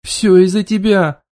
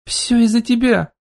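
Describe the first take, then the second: First: Loud, drawn-out accusing yell; shouting. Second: Higher-pitched, drawn-out accusing exclamation; slow, high cry of accusation; exclaiming. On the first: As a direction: shout the blame back, stretching the words. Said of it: "одновременно со мной закричала Анжа". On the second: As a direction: exclaim the blame, pitched up and stretched out. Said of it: "воскликнула я". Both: A narrator's reading.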